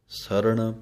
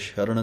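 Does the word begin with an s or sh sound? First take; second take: s; sh. First: The word begins with a plain s sound. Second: The word begins with a sh sound. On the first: The speaker calls it right. "ਪੈਰ 'ਚ ਬਿੰਦੀ ਨਹੀਂ ਲਾਉਣੀ" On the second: The speaker calls it wrong. "ਸੱਸੇ ਦੇ ਸ਼ਰਣ ਨਹੀਂ ਕਹਿ ਦੇਣਾ"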